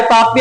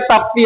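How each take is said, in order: First: ताप्ती as "taa-pee", with no middle T; variant pronunciation. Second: ताप्ती as "taap-tee", with a T after P; variant pronunciation. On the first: Teacher telling students not to be confused, ताप्ती said "taapee". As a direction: leave out the T after P in ताप्ती. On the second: Teacher telling students not to be confused, ताप्ती said "taaptee". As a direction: pronounce both consonants P and T in ताप्ती. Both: Shown as a demonstration. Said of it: "तो confuse मत होना".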